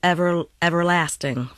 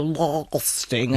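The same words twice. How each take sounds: First: EVERLASTING with a short, light American A; natural American A. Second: LASTING with a long drawn-out AH, pitched lower; mock-posh long A. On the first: Shown as a demonstration. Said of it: "her natural delivery of the word would be something like". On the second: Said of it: "we think we're being posh and we go".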